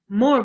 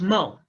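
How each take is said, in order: First: The final r is clearly pronounced. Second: The final r is left off.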